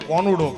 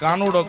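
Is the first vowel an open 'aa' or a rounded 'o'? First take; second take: o; aa. First: The first vowel is a rounded o sound. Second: The first vowel is an open aa sound. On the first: This is how people in north Gujarat say it. "તો એ કોનુડો કે" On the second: This is how people in Saurashtra say it. "આપણે કાનુડો કહી"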